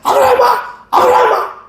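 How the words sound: It is called out urgently and hurriedly.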